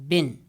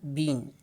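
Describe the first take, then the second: First: The vowel is short and weakened. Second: The vowel is a long close front vowel. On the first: "converted into weak form" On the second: "So here we have a strong form"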